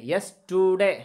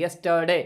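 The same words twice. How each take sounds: First: यस्टरडे said "yes-too-day", middle vowel a drawn-out "oo"; wrong U vowel. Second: यस्टरडे said "yes-tuh-day", middle vowel an open "uh". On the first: Teacher showing learners the mistake, यस्टरडे with an "oo" sound. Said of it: "यू को हम पेश की आवाज़ नहीं निकालेंगे". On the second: Teacher correcting the vowel for learners, यस्टरडे as "yes-tuh-day". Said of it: "बल्कि आ की". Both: Shown as a demonstration.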